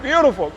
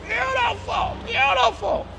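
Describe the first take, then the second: First: Said in the usual way. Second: Much higher, softer, drawn-out beautiful; high sighing praise. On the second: Real, not acted. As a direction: coo the word like admiring a car. Repeats beautiful, then high.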